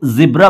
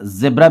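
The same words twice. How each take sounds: First: जिब्रा with short "i", zib-ra; zi-bra pronunciation. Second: ज़ेब्रा with "e", zeb-ra; ze-bra pronunciation. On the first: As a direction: say जिब्रा with z and an i vowel. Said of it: "इसको जिब्रा बोला जाता है". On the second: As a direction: say ज़ेब्रा with an open e vowel. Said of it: "लेकिन ज़ेब्रा भी कह सकते हैं". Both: Shown as a demonstration.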